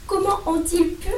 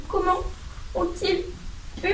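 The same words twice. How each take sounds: First: High pitched tearful plea in one breath; sobbing. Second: High, soft and halting, words split by sobbing pauses; sobbing, broken up. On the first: Hermione, shocked for Hagrid, says it tearfully in one breath. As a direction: cry it out, stressing comment. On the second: Hermione, shocked for Hagrid, sobs it out brokenly. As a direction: choke each word out between sobs. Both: A narrator's reading. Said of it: "sanglota-t-elle".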